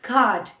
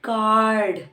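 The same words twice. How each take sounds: First: The r sound is silent. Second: The r sound is pronounced. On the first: The speaker calls it right. "R उनका silent हो जाता है. It's card" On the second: The speaker calls it wrong. "It's not card"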